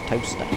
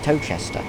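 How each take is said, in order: First: It is said as two syllables, toast-er. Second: It is said as three syllables, tow-ches-ter. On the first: The speaker calls it right. "it's toaster" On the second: The speaker calls it wrong. "which you'd think is Towchester, but it's not"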